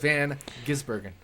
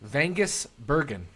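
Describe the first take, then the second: First: The name is split into two separate parts. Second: The name is run together as one word. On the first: The speaker calls it right. "instead of" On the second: The speaker calls it wrong. "it was like he forgot there was a space between Van and Gisbergen"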